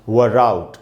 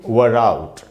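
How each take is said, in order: The two takes are said the same way.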